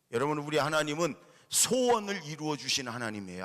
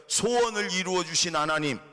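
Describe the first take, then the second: First: Said in the usual way. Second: Louder, higher, stress on 소원을, falling at 하나님; 소원을 이루어 주신 하나님 called out louder for the church to repeat; call for the congregation to repeat. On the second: Shown as a demonstration. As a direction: lead a loud call and response. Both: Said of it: "따라해 볼까요?".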